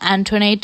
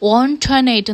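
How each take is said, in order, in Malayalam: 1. പേര് 'an' ശബ്ദത്തിലാണ് തുടങ്ങുന്നത്. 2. പേര് 'on' ശബ്ദത്തിലാണ് തുടങ്ങുന്നത്. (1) "ഞാനും പ്രൊണൗൺസ് ചെയ്തത് ആന്റോനേറ്റ് എന്നാണ്. പക്ഷെ ശരിക്കും അങ്ങനെയാണോ പ്രൊണൗൺസ് ചെയ്യേണ്ടത്? അല്ല" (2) "ഓൺടോനേറ്റ് എന്നാണ് പ്രൊണൗൺസ് ചെയ്യേണ്ടത്"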